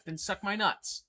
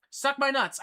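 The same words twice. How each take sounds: First: Said in the usual way. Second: Much higher and louder, spat out; louder defiant repeat. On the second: Real, not acted. Telling off the troll in chat, loud defiant repeat. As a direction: hit it again, harder and higher.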